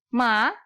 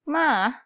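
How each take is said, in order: First: The pitch rises from middle to high. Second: The pitch dips low and then rises. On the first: "nada kedua" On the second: "nada ketiga"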